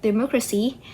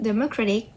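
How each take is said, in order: First: "democracy" with the stress on "mo"; stress on second syllable. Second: "democratic" with the stress on "cra"; stress on third syllable. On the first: Contrasting base word and suffixed word, "democracy" stressed on "mo". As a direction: say "democracy", leaning on the "mo". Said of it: "the stress was on the mo". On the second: Contrasting it with democracy, "democratic" stressed on "cra". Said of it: "the stress was on the re". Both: Shown as a demonstration.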